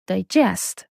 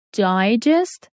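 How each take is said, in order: First: "digest" said dye-JEST, stress second; verb stress. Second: "Digest" said DIE-jest, stress first; noun stress. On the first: Teacher contrasting the verb for learners, "digest" as di-GEST. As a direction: stress the JEST of "digest", first syllable weak. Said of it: "which is a verb". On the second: Teacher contrasting the noun for learners, "Digest" as DIE-jest. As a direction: put the weight on the first syllable of "Digest". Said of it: "Digest means a short summary". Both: Shown as a demonstration.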